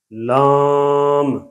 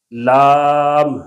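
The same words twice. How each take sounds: First: لام held long with a nasal aa; nasalized vowel. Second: Said in the usual way. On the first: Shown as a demonstration. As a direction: hum the vowel of لام through the nose. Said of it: "دونوں میں کافی فرق ہے". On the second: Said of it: "دیکھیں پہلی لام".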